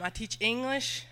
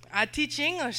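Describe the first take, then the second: First: Said in the usual way. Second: Light Mexican accent, pitched higher. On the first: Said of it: "speak like this". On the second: Shown as a demonstration. Missionary mimicking her Mexican students, a light Mexican accent. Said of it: "Mexican kids that speak like this".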